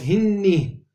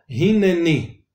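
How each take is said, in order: First: "Hinni" in two syllables, hin-ni; silent shva, wrong reading. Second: "Hinneni" in three syllables, hin-ne-ni; sounded shva in Hinneni. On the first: Teacher shows what would be badly said, silent shva. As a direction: drop the middle e, saying "Hinni". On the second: Teacher corrects the bad reading, sounded shva. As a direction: restore the middle e in "Hinneni". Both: Shown as a demonstration. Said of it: "está mal dicho".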